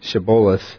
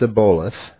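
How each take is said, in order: First: The word begins with a sh sound. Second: The word begins with an s sound. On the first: The speaker calls it right. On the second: The speaker calls it wrong.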